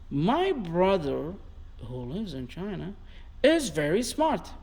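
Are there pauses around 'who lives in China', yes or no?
yes. It is said with pauses around the clause.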